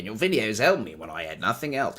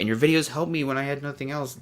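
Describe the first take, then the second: First: It is read in an exaggerated cartoonish Australian accent. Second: It is read sincerely in the speaker's natural voice. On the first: The speaker calls it wrong. "I said that in a cartoon Australian voice" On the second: The speaker calls it right. "I'm going to read that again, sincerely"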